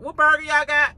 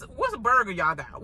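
First: "What burger y'all got?" pushed higher and louder; louder insistent repeat. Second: Said in the usual way. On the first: Shown as a demonstration. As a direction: demand it again, fed up.

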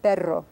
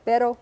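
First: "perro" with a rolled R; "perro" with a sustained tongue trill on the R; trilled Spanish R. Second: "pero" with a single tapped R; quick light R in "pero", no trill; non-trilled Spanish R. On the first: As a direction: roll the R in "perro". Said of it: "That's that trilled R". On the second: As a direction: tap the R just once in "pero". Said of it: "the trilled and non-trilled R". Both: Shown as a demonstration.

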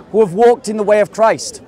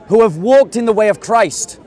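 The two takes are said the same way.

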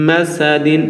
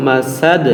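First: মাসাদিন with the full দিন ending sounded; মাসাদিন keeping the final নুন; wrong ending. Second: মাসাদ cut short, final দ with sukun, no vowel after; মাসাদ stopped on the দ; stopped ending. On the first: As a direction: say মাসাদিন as the tempting mistake. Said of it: "আমরা মাসাদিন বলবো না". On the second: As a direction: close মাসাদ on a dead দ. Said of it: "বলবো মাসাদ". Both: Shown as a demonstration.

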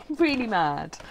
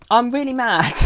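First: Said in the usual way. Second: Loud, high exasperated declaration; real frustration bursting out loud; really mad. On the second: Real, not acted. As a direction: blurt out the anger, half laughing.

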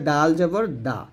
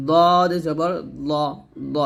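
First: দাল and দা light at the front teeth; thin dental D. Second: Slow, thick দদ from the tongue side; heavy D. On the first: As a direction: keep দাল flat and light. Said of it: "তর মতো দাল উচ্চারণ করবেন". (পাতলা করে দাল, দা) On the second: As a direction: thicken দদ with a rounded vowel. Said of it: "দদটা মোটা করে". (মোটা করে দদ) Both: Shown as a demonstration.

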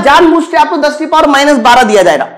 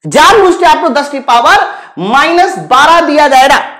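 First: Said in the usual way. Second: "जानबूझ" hit hard, then measured pauses; emphatic repetition. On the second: Shown as a demonstration. Teacher warns students of a deliberate trap, stressing "जानबूझ". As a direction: spell out the warning, phrase by phrase, from "जानबूझ".

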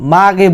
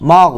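First: "মাগে" with a plain g and added vowel; thin wrong sound. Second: "মাগ" closed on a thick throaty gh; heavy ghayn. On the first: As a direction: say "মাগে" as the mistake to avoid. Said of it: "মাগে বলবেন না". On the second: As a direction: end "মাগ" in the throat, no added vowel. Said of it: "গয়ন হচ্ছে মোটা হরফ". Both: Shown as a demonstration.

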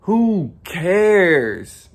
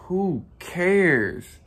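First: Louder, higher who cares thrown out; emphatic. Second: Said in the usual way. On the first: Pretend. Vlogger telling viewers to ignore their flaws, loud. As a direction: shout it off like you mean it. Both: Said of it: "Or I could be like".

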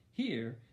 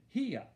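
First: Said in the usual way. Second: "here" drawn out with the r dropped; Southern "here". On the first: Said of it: "Instead of saying here". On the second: Shown as a demonstration. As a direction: say "here" slowly as Southern "hee-ah". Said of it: "Mama started talking Southern style".

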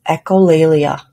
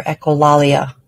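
First: "echolalia" with an "ay" vowel in the stressed syllable; first pronunciation variant. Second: "echolalia" with an "ah" vowel in the stressed syllable; alternative pronunciation. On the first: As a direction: say echolalia as echo-LAY-lia. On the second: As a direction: say echolalia as echo-LAH-lia. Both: Shown as a demonstration. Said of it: "Not sure which way it's pronounced".

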